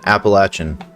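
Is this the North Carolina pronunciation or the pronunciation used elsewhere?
North Carolina. It is said the North Carolina way. The speaker calls it right. "I pronounce Appalachian Appalachian"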